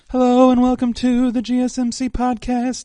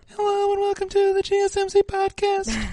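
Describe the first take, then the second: First: It is said in a normal chest voice. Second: It is said in a high falsetto voice.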